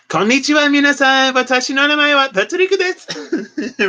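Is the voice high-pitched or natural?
high-pitched. It is spoken in a raised, high-pitched voice. "not like"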